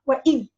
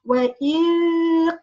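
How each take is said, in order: First: The final consonant is closed off, cutting the sound. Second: The final consonant is touched lightly and continues. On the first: The speaker calls it wrong. "I can't say" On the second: The speaker calls it right. "in Quran we can say"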